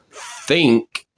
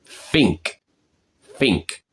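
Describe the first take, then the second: First: "think" with a clear th; tongue between the teeth for "think"; standard pronunciation. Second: "think" said as "fink"; Cockney pronunciation. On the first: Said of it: "instead of saying it like". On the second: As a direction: swap the th in "think" for f. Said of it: "they say it like". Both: Shown as a demonstration.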